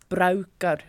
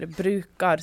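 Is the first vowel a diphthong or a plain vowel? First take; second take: diphthong; plain vowel. First: The first vowel is an a-u diphthong. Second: The first vowel is a plain long u. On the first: This is how the dialect speaker says it. "så sier du brauker" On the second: This is the usual way to say it. "i stedet for å si bruker"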